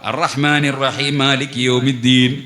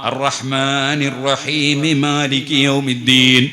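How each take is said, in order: First: One of the two m sounds is lost. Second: The final m takes an i vowel linking on. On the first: The speaker calls it wrong. "ഒരു മീമ് പോയി പോയി ഫാത്തിഹ ശരിയായില്ല" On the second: The speaker calls it right. "മീമിന് കസ്ർ ചെയ്തിട്ട് മാലികി യൗമിദ്ദീൻ എന്ന് കൂട്ടി ഓതാം"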